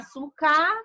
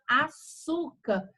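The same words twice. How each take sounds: First: The stress is not on the middle syllable. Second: The stress is on the middle syllable. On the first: The speaker calls it wrong. "Você não chama o açúcar" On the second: The speaker calls it right. "a penúltima sílaba, ela é acentuada e ela é mais forte"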